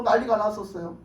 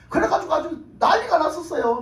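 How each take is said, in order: First: Said in the usual way. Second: Loud emphasis. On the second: Real, not acted. Repeated line, first loud.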